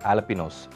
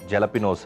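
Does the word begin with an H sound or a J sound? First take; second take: H sound; J sound. First: The word begins with an H sound. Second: The word begins with a J sound. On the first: The speaker calls it right. "కానీ వీటి pronunciation ఆలపినోస్" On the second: The speaker calls it wrong. "కొంతమంది మిస్ప్రొనౌన్స్ చేస్తూ ఉంటాం మనము"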